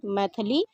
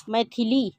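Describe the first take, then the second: First: मैथिली with "tha" in the middle, "maithali"; wrong pronunciation. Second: मैथिली with a clear i, "maithili"; correct pronunciation. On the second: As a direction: say मैथिली as mai-thi-li. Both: Shown as a demonstration. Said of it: "शुद्ध और अशुद्ध रूप में".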